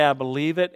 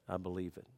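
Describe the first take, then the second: First: Said in the usual way. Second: Quiet, low "I believe it"; soft confession of faith. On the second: Shown as a demonstration. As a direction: say it softly, to yourself. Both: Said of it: "I gotta look at it and say".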